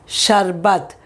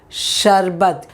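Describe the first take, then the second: No difference in how they are said.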